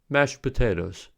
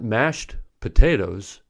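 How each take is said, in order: First: The final consonant of mashed is dropped. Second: The final consonant of mashed is fully pronounced. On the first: The speaker calls it right. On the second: The speaker calls it wrong.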